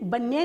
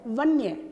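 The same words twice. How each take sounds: First: The word begins with a b sound. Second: The word begins with a v sound. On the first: The speaker calls it wrong. "वन्य नहीं" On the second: The speaker calls it right. "हमारा शब्द है वन्य"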